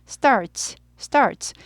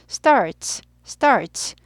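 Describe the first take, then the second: No difference in how they are said.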